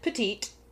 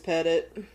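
First: The last syllable has a long 'ee' vowel. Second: The last syllable has a short 'i' vowel. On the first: The speaker calls it wrong. "other people have pronounced it Petite" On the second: The speaker calls it right. "it is Pettit"

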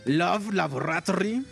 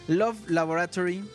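First: It is said with a put-on German accent. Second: It is said without a put-on accent.

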